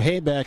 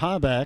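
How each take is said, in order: First: The first syllable of the name sounds like 'hay'. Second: The first syllable of the name sounds like 'ha'. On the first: This is how the locals pronounce it. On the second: This is the announcer's own pronunciation.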